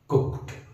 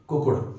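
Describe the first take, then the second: First: The ending is clipped with no extra syllable. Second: The ending is said as an extra syllable. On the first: The speaker calls it right. "कड़क कड़क pronounce करो ... सही" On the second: The speaker calls it wrong. "गलत है"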